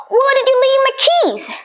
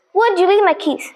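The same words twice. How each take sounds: First: A sharp high keys question; high-pitched. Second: Said in the usual way. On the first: Shown as a demonstration. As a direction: let the pitch jump right up on the question. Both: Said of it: "slightly difference in those two deliveries".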